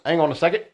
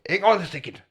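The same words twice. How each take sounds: First: It is said in his ordinary accent. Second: It is said in a put-on German accent.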